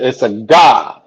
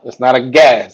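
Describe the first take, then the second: First: "God" with an open "ah", drawn out slowly; open "ah" vowel. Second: "Gad" with the short "a" of "cat"; front "a" vowel. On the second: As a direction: say "Gad" to rhyme with "bad". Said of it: "It's slightly different". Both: Shown as a demonstration.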